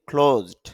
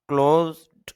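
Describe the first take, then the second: First: The first k sound has a strong puff of air. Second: The first k sound has no puff of air. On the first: The speaker calls it right. "অর্থাৎ মুখ থেকে অতিরিক্ত বাতাস বের করতেছি" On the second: The speaker calls it wrong. "আমি ক্লোজড বলিনি"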